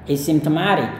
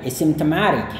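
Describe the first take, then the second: The two takes are said the same way.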